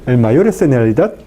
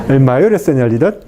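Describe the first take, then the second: Both takes have the same delivery.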